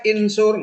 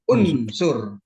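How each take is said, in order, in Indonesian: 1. Kata ini dimulai dengan vokal i. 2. Kata ini dimulai dengan vokal u. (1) "Nggak boleh insur" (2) "harokatnya dom, dom, unsur"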